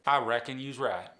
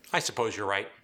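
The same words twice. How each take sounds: First: "I reckon you's right" with Appalachian "right" as "raht"; drawn Appalachian vowels on "right"; Appalachian accent. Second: Said in the usual way. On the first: Shown as a demonstration. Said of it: "whereas Earl's gonna say". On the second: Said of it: "In standard American English".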